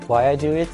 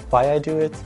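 No difference in how they are said.

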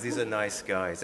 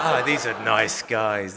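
First: Said in the usual way. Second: Louder, slow and laughing; mock naive cheer, laughing at yourself; naive delight. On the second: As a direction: ironic gushing take. Naive thought, then repeated.

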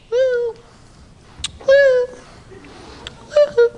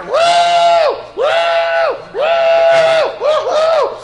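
First: Short high-pitched hoot; attention-getting woo. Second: Loud, very high whooping; harder attention-getting woo. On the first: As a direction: imitate a lady hooting for the waiter. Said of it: "trying to get the waiter's attention". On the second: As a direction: whoop insistently, mimicking a lady hailing a waiter. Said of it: "So she tried a little harder". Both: Retold or imitated.

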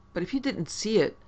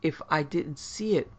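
First: You pushed higher in pitch; but if YOU didn't see it, said with you high; stress on you. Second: See gets the weight, I left light; stress on see. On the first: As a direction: lean on you, doubtful. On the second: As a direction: press on see, echoing his words. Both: Acted. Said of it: "Purvisant took up Scrope's word".

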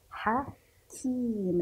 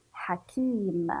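First: "حكيم" slowly split as ha, then a long kiim; syllable by syllable. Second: Said in the usual way. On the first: Shown as a demonstration. Teacher shows pupils the kasra on kaf, "حكيم" drawn out in syllables. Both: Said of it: "لذلك سنكسر حرف الكاف".

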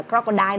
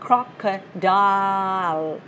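First: "crocodile" ending in an open "dai", no L; dropped final L. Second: "crocodile" slowly, syllable by syllable, ending on L; final L sounded. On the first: Teacher warning learners with the mistake, "crocodile" without final L. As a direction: leave the L off the end of "crocodile". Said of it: "đừng đọc là crocodile đó". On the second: Teacher modelling the correct ending, slow "crocodile" with final L. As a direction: stretch out "crocodile" and land on a clear L. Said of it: "Âm đuôi đó là âm L". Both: Shown as a demonstration.

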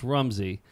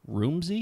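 First: "Rumsey" said as RUM-zee, settled; corrected pronunciation. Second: "Rumsey" said as ROOM-zee, questioning; mistaken pronunciation. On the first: Host accepting the correction, "Rumsey" now with a short uh. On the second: Host guessing at the guest's name, mispronounced "Rumsey" as ROOM-zee. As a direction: say "Rumsey" with a long oo, higher and unsure. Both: Real, not acted. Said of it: "he pronounces it Rumsey".

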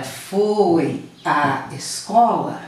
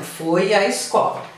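First: "foi à escola" said very slowly, word by word; words drawn apart. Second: Said in the usual way. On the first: Shown as a demonstration. Teacher showing students the two As, "foi à escola" slowly separated. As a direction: stretch "foi" and "à", setting each apart from "escola". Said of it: "aqui eu tenho um A mais um A". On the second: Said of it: "Por exemplo".

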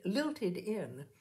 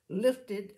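First: "lilted" said right with an L, "lilt-ed"; "lilted in" read correctly, the fix; corrected word. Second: "lilted" misread as "lifted" with an F; "lilted" said as "lifted", wrong word. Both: A narrator's reading.

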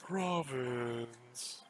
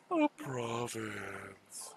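First: Said in the usual way. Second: Oh, province stretched out very slowly; drawn-out province. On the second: Shown as a demonstration. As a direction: draw out each sound of "province" slowly and savouringly. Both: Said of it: "I have to say".

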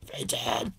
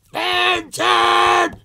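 First: Fenton! breathed out as a whisper, no voice; whispered call. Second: Fenton! yelled very high and loud, held long; full-throated cartoon bellow; exaggerated shout. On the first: Pretend. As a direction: mouth the dog's name under your breath. Trying the name while drawing. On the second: Vlogger shouts the name to match the shouting marks, loud high yell. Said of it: "exaggerated shouting marks".

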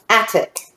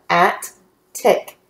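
First: Said in the usual way. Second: "at, tick" as two separate syllables, pause between; broken into syllables. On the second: Shown as a demonstration. Teacher breaking up a word for readers, "at, tick" syllable by syllable. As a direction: say "at, tick" split, each part fully sounded. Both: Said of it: "We will break those up".

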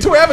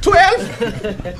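First: Said in the usual way. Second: Very high, shocked twelve; incredulous echo. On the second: Retold or imitated. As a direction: squeak the word Twelve in disbelief.

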